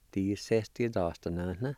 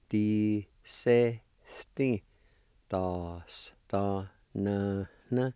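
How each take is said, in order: First: Said in the usual way. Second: Di-se-sti, da-s-, da-na-na stretched out very slowly, syllable by syllable; slow pronunciation demo. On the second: Shown as a demonstration. Teacher joining the word parts for students, very slow. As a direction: drag each syllable of di-se-sti out slowly for learners. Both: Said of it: "And together".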